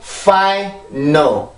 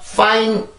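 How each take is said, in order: First: The n sound opens the second syllable. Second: The n sound closes the first syllable. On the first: The speaker calls it right. "N 발음이 앞으로 붙느냐, 뒤로 붙느냐" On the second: The speaker calls it wrong. "final이 아니고"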